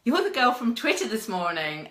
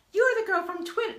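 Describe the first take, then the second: First: Toned-down quote, still raised and loud; corrected imitation. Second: High, loud mock voice for him; exaggerated imitation. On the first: Pat recognising her from that morning, toned-down imitation. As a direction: quote him with less squeak, more natural. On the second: Pat recognising the girl from Twitter, hammed-up high voice. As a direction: put on an over-the-top, high-pitched voice. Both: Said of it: "No, he doesn't speak like that".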